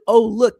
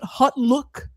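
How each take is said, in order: First: The name begins with 'oh', without a t. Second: The name begins with 'hot', with a t.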